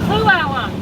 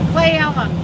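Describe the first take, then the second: First: The first syllable sounds like clue. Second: The first syllable sounds like clay. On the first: "Clue. Clue Elm. Got it" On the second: "am I saying that right, Laura?"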